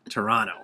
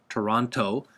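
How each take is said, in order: First: The second T is lazy, nearly dropped. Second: The second T is clearly pronounced. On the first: It sounds like a local said it. The speaker calls it right. "Got a real lazy, real lazy T there" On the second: It sounds like an outsider said it. The speaker calls it wrong. "don't say Toronto"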